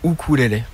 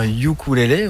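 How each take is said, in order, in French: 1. La première voyelle est un simple son "oo". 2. La première voyelle est un son "yoo". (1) "pour prononcer correctement euh, le nom de l'instrument, il faut dire ukulélé" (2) "La prononciation anglo-saxonne c'est largement répandue, donc c'est vrai qu'on va dire ukulélé"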